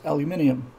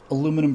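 First: The word ends in '-ium', like titanium. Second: The word ends in '-num', without the extra '-ium' syllable. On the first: This is the British form. The speaker calls it right. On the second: This is the American form. The speaker calls it wrong.

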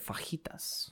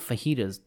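First: The word is pronounced with a Spanish accent. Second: The word is pronounced with an English accent. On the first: The speaker calls it right. "They're fajitas" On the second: The speaker calls it wrong. "They're not fajitas"

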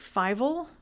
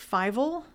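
First: The name sounds like the cartoon mouse Fievel. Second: The name sounds like the cartoon mouse Fievel.

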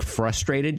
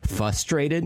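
First: The R sound is pronounced in the word. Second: The R sound is dropped from the word. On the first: "instead of saying frustrated" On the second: "she just eliminates the R"

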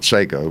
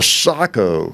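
First: The first vowel is an 'ay' sound. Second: The first vowel is an open 'ah' sound. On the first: This is the common popular pronunciation. The speaker calls it wrong. "everybody calls it Seiko" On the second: This is the proper pronunciation of the name. The speaker calls it right. "is how you pronounce it"

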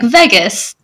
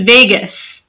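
First: The first vowel sounds like the vowel in egg. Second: The first vowel does not sound like egg. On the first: "You're pronouncing it like it has egg in it" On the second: "It's Vegas"

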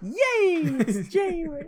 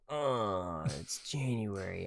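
First: It sounds cheerful and excited. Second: It sounds glum and reluctant.

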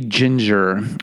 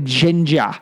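First: The word is said in a non-British accent. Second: The word is said in a British accent.

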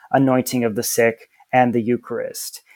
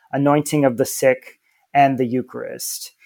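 The two takes are said the same way.

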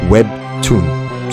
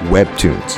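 First: It is said with a Korean accent. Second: It is said with an English accent.

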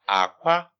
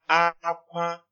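First: The tone goes from low to high. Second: Both syllables are on a high tone. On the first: It means egg. "it's low tone, high tone" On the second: It means cry. "it's high tone"

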